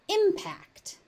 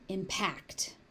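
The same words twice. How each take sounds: First: The stress is on the first syllable. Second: The stress is on the second syllable. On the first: It is used as a noun. "As a noun, it is impact" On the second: It is used as a verb. "As a verb, it is impact"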